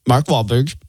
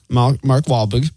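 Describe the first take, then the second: First: Said in the usual way. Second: Put-on halting, drawn-out stab at a Boston accent; fumbled Boston accent on the name; attempted Boston accent. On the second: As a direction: try "Wahlberg" with a softened Boston R. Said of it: "can't even do that in the accent".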